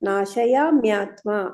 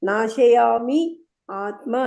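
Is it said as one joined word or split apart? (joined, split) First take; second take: joined; split. First: It is run together as one word. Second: It is split into two separate words. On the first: The speaker calls it right. "ಹಂಗೆ ಹೇಳ್ಬೇಕು" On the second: The speaker calls it wrong. "Split ಮಾಡಿದ್ರೆ ಹೇಳಲಿಕ್ಕೆ ಬರಲ್ಲ tune ಅಲ್ಲಿ"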